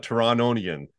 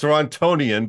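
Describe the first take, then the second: First: "Torontonian" as "Torononian", middle T dropped; rejected T-less form. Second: "Torontonian" with a clear T in "tonian". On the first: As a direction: turn the T of "Torontonian" into N. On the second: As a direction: sound the middle T of "Torontonian". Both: Shown as a demonstration. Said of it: "but not Torontonian".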